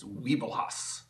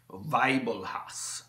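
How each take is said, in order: First: Said in the usual way. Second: Weibelhaus said slowly as "vy-bo-hows" with a German V; German pronunciation. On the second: Shown as a demonstration. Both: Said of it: "I'm not sure exactly how to pronounce it".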